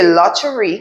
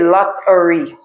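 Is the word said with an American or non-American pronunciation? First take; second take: non-American; American. First: The word has a non-American pronunciation. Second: The word has an American pronunciation. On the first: The speaker calls it wrong. "don't say lottery" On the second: The speaker calls it right. "say lottery"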